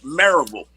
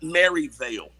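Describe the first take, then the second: First: The last syllable sounds like 'vill'. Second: The last syllable sounds like 'vale'. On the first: The speaker calls it right. "It's Maryville" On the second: The speaker calls it wrong. "not Maryvale"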